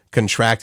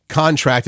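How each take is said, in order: First: "contract" with the stress on TRACT; last-syllable stress. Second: "contract" with the stress on CON; first-syllable stress. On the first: Explaining verb forms to a co-host, "contract" stressed on TRACT. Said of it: "the verb stresses the last". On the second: Explaining noun forms to a co-host, "contract" stressed on CON. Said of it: "the noun form stresses the first syllable". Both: Shown as a demonstration.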